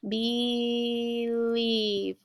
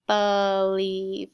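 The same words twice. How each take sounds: First: "believe" as a drawn-out BEE-leeve; "believe" stretched, first vowel a clear ee; long E pronunciation. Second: "believe" as buh-LEEVE; "believe" opening on a slow buh; alternative pronunciation. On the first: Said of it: "or some people pronounce it". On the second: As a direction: say "believe" with a schwa in the first syllable. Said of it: "some people pronounce it believe". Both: Shown as a demonstration.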